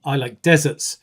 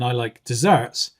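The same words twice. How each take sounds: First: "deserts" stressed on the first syllable, DE-serts. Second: "desserts" stressed on the second syllable, des-SERTS. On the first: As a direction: say "deserts" with the first syllable strong and the second weak. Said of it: "when a student says". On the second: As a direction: say "desserts" with the second syllable strong and the first weak. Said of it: "rather than". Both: Shown as a demonstration.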